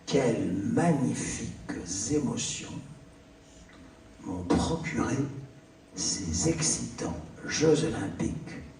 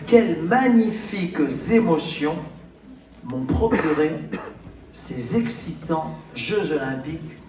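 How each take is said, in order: First: It is read at a slower pace. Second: It is read at a faster pace.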